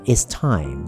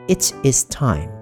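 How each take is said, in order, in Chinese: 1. 这句话说成缩写形式，it 和 is 合成一个音。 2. 这句话说成三个独立的完整单词。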